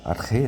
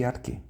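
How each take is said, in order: First: "arche" said ar-RRÊ, throaty h in the middle; preferred guttural ch. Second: "arque" said ar-KÊ, with a plain k; hard k. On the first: Teacher showing his own preferred pronunciation, throaty ch. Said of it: "eu gosto de falar arche". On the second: Teacher contrasting the less correct pronunciation, hard k. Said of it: "mais correta do que arque". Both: Shown as a demonstration.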